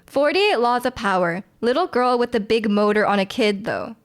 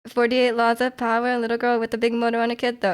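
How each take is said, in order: First: The line is said at a normal pace. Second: The line is said at a fast pace.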